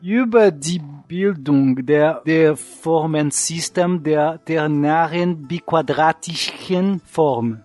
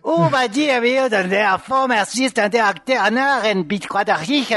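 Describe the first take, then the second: First: It is said with a French-sounding accent. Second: It is said harshly, as if wanting to kill.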